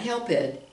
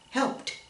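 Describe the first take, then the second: First: The ending does not sound like a T. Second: The ending sounds like a T. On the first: The speaker calls it wrong. "not helped" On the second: The speaker calls it right. "that's a voiceless sound"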